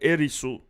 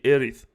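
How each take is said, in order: First: It ends in an s sound plus a vowel. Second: It ends in a th sound with no vowel. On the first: This is how speakers of Japanese say it. The speaker calls it wrong. "they sound like Erisu" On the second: This is the intended form of the name. The speaker calls it right. "when they try to say Erith"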